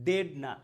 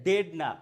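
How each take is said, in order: No difference in how they are said.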